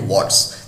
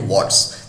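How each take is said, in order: First: It is said as one contracted word. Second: The same.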